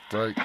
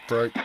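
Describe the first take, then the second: No difference in how they are said.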